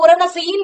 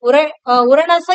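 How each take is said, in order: First: The vowels are kept short, not drawn out. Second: A vowel is drawn out and lengthened. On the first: The speaker calls it wrong. "இந்த இடத்துல உரணசைன்னு படிக்கக்கூடாது" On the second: The speaker calls it right. "அது இழுத்து படிக்கணும்"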